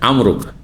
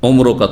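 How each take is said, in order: First: The first vowel is an open a sound. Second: The first vowel is a rounded u sound. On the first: The speaker calls it right. "আর আমরনটা শুধু শপথের ক্ষেত্রে বলা হয়" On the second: The speaker calls it wrong. "তখন নয়"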